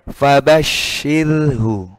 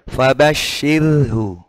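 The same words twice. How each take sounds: First: The r is said thin, with little vibration. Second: The same.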